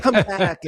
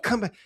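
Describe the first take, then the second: First: High, loud hammed-up cry of come back; mock dramatic plea. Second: A teary overacted call, pitched up; mock dramatic plea. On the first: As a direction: overact a melodramatic dancer calling out. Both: Mocking dramatic dance routine.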